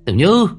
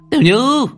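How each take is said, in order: First: Calling the name Tiểu Như much higher and louder, rising; shrieked name. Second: Tiểu Như shrieked even higher and louder, at the top of the range. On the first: Mother shrieking at her daughter's door. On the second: Mother pounding the door, screaming her daughter's name. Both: A narrator's reading. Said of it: "bà ta nói như rít lên".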